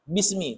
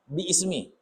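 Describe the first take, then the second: First: It is said as one merged word. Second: It is said as two separate words. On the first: The speaker calls it right. "tapi bacanya bismi" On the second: The speaker calls it wrong. "jangan dibaca bi ismi. Salah"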